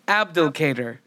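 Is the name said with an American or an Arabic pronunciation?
American. The name is said with an American pronunciation. The speaker calls it wrong. "the Americanized version of it, which is what I tried"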